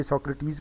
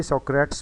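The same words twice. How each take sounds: First: सोक्रेटिस said as three syllables, sok-ruh-teez; सोक्रेटिस in three beats; three-syllable pronunciation. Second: सोक्रेट्स said as two syllables, so-crates; सोक्रेट्स with no separate final "teez" syllable; two-syllable mispronunciation. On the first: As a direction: give सोक्रेटिस its separate final "teez". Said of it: "तीन syllable हों तो ये". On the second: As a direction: read सोक्रेट्स wrongly, ending like English "crates". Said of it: "दो syllable हों तो ये". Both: Shown as a demonstration.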